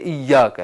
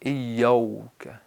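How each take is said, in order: First: A long a comes straight before the k. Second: A w-like vowel comes before the k. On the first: The speaker calls it right. "इय्याका है" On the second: The speaker calls it wrong. "अलिफ को वाव में बदलते हैं"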